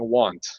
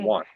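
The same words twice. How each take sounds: First: Every letter is pronounced, including the final t. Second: Some letters are dropped, without a clear final t. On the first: The speaker calls it wrong. "I'll start saying want" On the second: The speaker calls it right. "We say"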